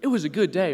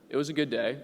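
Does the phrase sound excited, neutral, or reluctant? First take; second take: excited; neutral. First: It sounds bright and enthusiastic. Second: It sounds plain and matter-of-fact. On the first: The day was great. "which means it was a great day" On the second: The day was normal. "which means it was a normal day"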